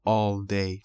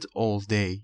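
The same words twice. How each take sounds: First: All day with a rounded British vowel in "all"; British pronunciation. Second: Said in the usual way. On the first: Shown as a demonstration. Teacher adding the variant after the example, British pronunciation. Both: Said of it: "تلفظ بریتیش".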